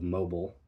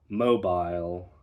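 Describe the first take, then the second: First: The ending is not pronounced like 'aisle'. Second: The ending is pronounced like 'aisle'. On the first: "instead of" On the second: "words ending in I L E are spoken as aisle"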